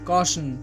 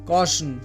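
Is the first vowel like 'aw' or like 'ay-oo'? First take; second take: aw; aw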